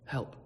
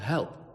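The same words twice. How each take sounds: First: It is said very quietly, like a croak. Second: It is said louder.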